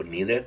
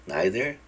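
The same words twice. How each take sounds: First: "neither" with a long ee, NEE-ther; alternative pronunciation. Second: "neither" with the first vowel like English "eye"; vowel I pronunciation. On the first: Teacher giving students the other option, "neither" said NEE-ther. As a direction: say "neither" with first vowel as in "knee". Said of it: "o neither también". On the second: Teacher showing students the I sound, "neither" said NYE-ther. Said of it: "aquí I, neither". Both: Shown as a demonstration.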